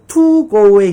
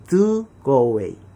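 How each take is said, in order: First: The t in "to" is a strong, explosive t. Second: The t in "to" is softened to a d. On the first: The speaker calls it wrong. "to go away 했더니 침 튀어서 욕먹죠" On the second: The speaker calls it right. "T 발음을 D 발음으로 약화시키는 거예요"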